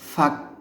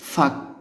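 The two takes are said the same way.

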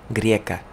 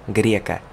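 The two takes are said the same way.

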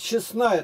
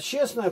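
First: The stress is on the last syllable. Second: The stress is on the first syllable. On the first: It means virtuous or holy. "то есть добродетельная" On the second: It means simply acting honestly. "просто поступал честно"

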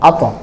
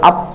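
First: The final consonant is released with a bouncing push. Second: The final consonant stops flat with no bounce. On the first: The speaker calls it right. "একটু ধাক্কা দিয়ে বলা, আওয়াজকে একটু ধাক্কা দেওয়া" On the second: The speaker calls it wrong. "তাহলে এটা কলকলা হলো না"

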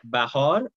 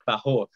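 First: The second syllable has an ah vowel. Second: The second syllable has an oh vowel. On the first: This is the Iranian Persian pronunciation. "the ah sounds become O when you're like further towards the east" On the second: This is the eastern, Tajik Persian pronunciation. "Bahor becomes Bahor"

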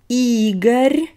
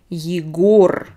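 First: The stress is on the first syllable. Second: The stress is on the second syllable. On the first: "E is stressed" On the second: "O is stressed"

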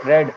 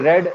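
First: The vowel is a short 'e' sound. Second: The vowel is a short 'e' sound.

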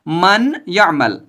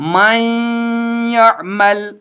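First: The n is pronounced clearly before the y. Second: The n merges into a doubled y. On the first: The speaker calls it wrong. "इजहार नहीं होगा, जैसे मन यअमल" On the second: The speaker calls it right. "इस नून साकिन की आवाज को इस या में दाखिल करेंगे, जैसे मन यअमल"

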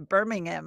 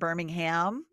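First: It is said the British way. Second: It is said the American way.

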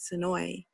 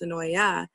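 First: The name ends on the 'noy' sound. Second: The name ends with an extra 'ya' sound. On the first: The speaker is a local. The speaker calls it right. "Locals simply call it Sonoy" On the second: The speaker is not a local. The speaker calls it wrong. "although you might think Sonoy would most likely be pronounced Sonoya, don't be fooled"

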